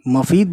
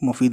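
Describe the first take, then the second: First: The first vowel is an 'a' sound. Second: The first vowel is a 'u' sound. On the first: It is not a real word. The speaker calls it wrong. "मफीद बोलेंगे तो कुछ नहीं होता" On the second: It means benefit. The speaker calls it right. "मुफीद मतलब होता है फायदा"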